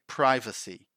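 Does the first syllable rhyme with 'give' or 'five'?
five. The first syllable rhymes with 'five'. This is the American pronunciation. "In American English, people say privacy"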